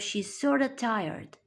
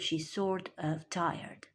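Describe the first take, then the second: First: Sort of is blended into one reduced word. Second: Sort and of are said as separate full words. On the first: "So she's sorta tired" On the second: "instead of"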